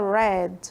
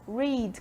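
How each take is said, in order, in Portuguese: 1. A palavra soa como a cor 'red'. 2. A palavra não soa como 'red'. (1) "que é o mesmo som do, da cor vermelho, que fica red" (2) "Read, que é o verbo ler"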